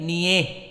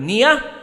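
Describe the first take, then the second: First: The ending has a vowel tilted toward e. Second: The ending has an open a vowel. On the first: This is the Al-Kisai reading. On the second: This is the majority reading.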